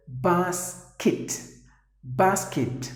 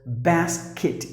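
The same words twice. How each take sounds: First: BASKET as BAHS-kit; British pronunciation. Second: BASKET as BAS-kit, flat A; short American A in BASKET; American pronunciation. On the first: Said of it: "If you go to U K". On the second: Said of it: "the Americans would pronounce". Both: Shown as a demonstration.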